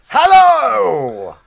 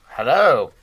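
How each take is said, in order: First: It is said in a big, loud way. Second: It is said in a smooth, suave way.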